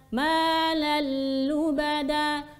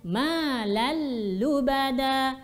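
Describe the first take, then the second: The two takes are said the same way.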